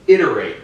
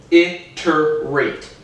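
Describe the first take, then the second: First: Said in the usual way. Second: "iterate" in three separate beats, it-ter-rate; syllable by syllable. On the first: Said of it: "If I break that word down". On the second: Shown as a demonstration. Showing a word's syllables, "iterate" split as it-ter-rate. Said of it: "break that word down into three syllables".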